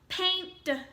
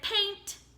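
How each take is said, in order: First: The ending is pronounced as a d sound. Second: The ending is pronounced as a t sound. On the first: "Let's try with the d sound at the end" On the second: "if I make ed say t"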